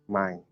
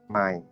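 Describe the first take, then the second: The two takes are said the same way.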